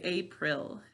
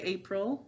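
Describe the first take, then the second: First: Each syllable is pronounced clearly as written. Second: It is said the ordinary conversational way. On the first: This is how the word is said to help spell it. "To spell it, we say April" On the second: This is how the word is said in normal talk. "We say April when we're speaking"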